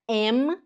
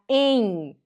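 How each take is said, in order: First: The word ends with the lips closing on M. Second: The word ends in an open nasal N-like sound. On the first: The speaker calls it wrong. "você não fala em" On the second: The speaker calls it right. "o M tem som de N"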